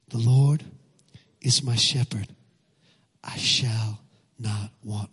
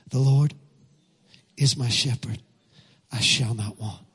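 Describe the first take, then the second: First: It is said slowly and deliberately. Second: It is said at a normal speed.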